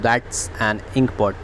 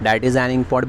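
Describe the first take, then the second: First: 'That is' is shortened to one syllable. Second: 'That is' is said as two full words.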